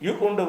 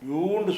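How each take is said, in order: First: The vowel is cut by a glottal catch. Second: The vowel is stretched long without a break. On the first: The speaker calls it right. "யூ யூ உண்டு படிக்கணும்" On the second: The speaker calls it wrong. "யூண்டு சொல்லாமல்"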